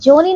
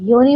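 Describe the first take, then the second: First: The word begins with a 'j' sound. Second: The word begins with a 'y' sound. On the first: The speaker calls it wrong. "नहीं" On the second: The speaker calls it right. "योनी होता है"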